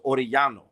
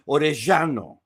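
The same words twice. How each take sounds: First: The double L is said as a Y sound. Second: The double L is said with a heavy sound. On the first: This is how most other speakers say it. "a double L is a Y sound" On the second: This is how people in one region of Argentina say it. "areas in Argentina where they very heavily accent some of the the double L's"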